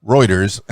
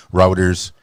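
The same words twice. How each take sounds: First: Reuters with "oy" as in toy; corrected Reuters. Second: Reuters said as ROW-ders, rhyming with "outers"; Reuters with "ow" as in cow; mispronounced Reuters. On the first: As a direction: fix it to ROY-ters with a small laugh. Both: Real, not acted.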